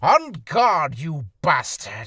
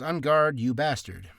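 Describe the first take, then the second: First: It is acted out dramatically, like in a duel. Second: It is read flatly, like reading off a page.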